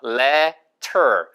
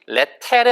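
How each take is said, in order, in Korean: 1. 마지막 모음은 er처럼 r 소리가 섞인 모음입니다. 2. 마지막 모음은 r 소리가 없는 평범한 모음입니다. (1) "er 발음은 er 발음이어서" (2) "letter 아니고"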